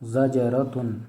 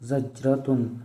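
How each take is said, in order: First: The j consonant is released with an echoing bounce. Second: The j consonant stops flat without an echo. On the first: "कलकला के साथ" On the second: "बग़ैर कलकला के"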